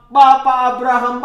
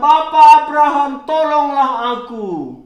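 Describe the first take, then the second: First: Said in the usual way. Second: Fast, loud call for help; crying out for help. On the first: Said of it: "Akhirnya dia berseru kepada". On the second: Acted. Rich man in hell calls to Abraham, a loud plea. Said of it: "dia berseru kepada".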